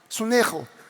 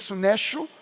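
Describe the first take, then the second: First: The middle consonant is a throaty R sound. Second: The middle consonant is said like written 'ch'. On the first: The speaker calls it right. "a pronúncia do C H no grego ... é um R" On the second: The speaker calls it wrong. "Se escreve com C H, dá a impressão que é sunecho"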